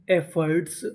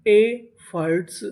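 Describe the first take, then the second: First: Said in the usual way. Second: efforts slowly split, first part held; syllable by syllable. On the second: Shown as a demonstration. Teacher sounds out a new word, efforts slowly in pieces. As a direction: break efforts into two drawn-out pieces. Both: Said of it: "efforts का मतलब होता है".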